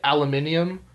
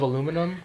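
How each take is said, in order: First: It is said with the British five-syllable pronunciation. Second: It is said with the American four-syllable pronunciation. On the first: This is how English people say it. "You know what they also say? Aluminium" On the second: This is how people here say it. "instead of aluminum"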